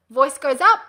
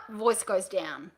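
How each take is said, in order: First: Rising, louder lift on UP; voice going up. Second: Slow, softer drop on DOWN; voice going down. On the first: Coach shows the first option's tune, rising on up. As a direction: send the pitch climbing on up. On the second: Coach shows the second option's tune, falling on down. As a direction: let the pitch sink slowly on down. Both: Shown as a demonstration.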